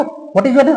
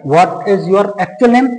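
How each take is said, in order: First: Said in the usual way. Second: Very slow, each word spaced, "actual" leaned on; slow teacher emphasis on "actual"; stress on actual. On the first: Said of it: "बात पे जोर देके कहना है". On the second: Shown as a demonstration. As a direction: drag it out and press "actual". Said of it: "बात पे जोर देके कहना है कि what is your actual name".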